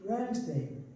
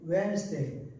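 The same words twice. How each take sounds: Both takes have the same delivery.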